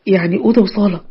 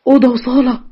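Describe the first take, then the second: First: Said in the usual way. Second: أوضة وصالة echoed higher with a scornful rise; the father throws the words back in disbelief; incredulous echo. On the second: A narrator's reading.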